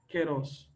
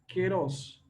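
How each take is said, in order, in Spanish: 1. La primera sílaba se pronuncia ke. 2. La primera sílaba se pronuncia ke.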